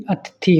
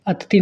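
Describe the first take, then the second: First: अतिथि as the teacher's corrected take; corrected form. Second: अतिथि as the teacher's mistaken take; wrong spelling. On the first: Teacher corrects students, model form. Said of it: "होती हैं". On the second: Teacher shows students the mistake, contrasting form. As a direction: say अतिथि as the faulty form to reject. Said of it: "नहीं". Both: Shown as a demonstration.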